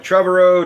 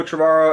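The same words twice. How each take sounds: First: "Trevorrow" as TREV-er-oh, stressed on the first syllable; unsure audience guess, "Trevorrow" said TREV-er-oh; mispronounced name. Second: "Trevorrow" as truh-VAR-oh, stressed in the middle; second guess at "Trevorrow", truh-VAR-oh; alternative pronunciation. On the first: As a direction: call out "Trevorrow" with TREV punched, middle reduced to "er". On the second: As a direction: say "Trevorrow" with a short first syllable and an open VAR. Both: Retold or imitated. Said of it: "trying to remember how to pronounce".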